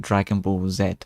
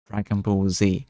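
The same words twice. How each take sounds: First: The final letter is said the speaker's way. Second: The final letter is said the usual way. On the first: "I say Dragon Ball Z" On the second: "how most people do"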